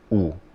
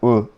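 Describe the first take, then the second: First: The u vowel is fuller and more rounded. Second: The u vowel is lighter and less rounded.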